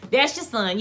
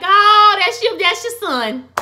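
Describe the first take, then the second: First: Said in the usual way. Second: High, loud squeal of delight; excited gush. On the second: Real, not acted. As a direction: squeal it over the sweet moment. Host gushes at hug scene.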